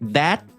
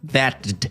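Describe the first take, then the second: First: The final D is barely heard, just cut short. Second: The final D sound is clearly pronounced. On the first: The speaker calls it right. "É só uma cortadinha a mais no final do that" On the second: The speaker calls it wrong. "Não precisa fazer"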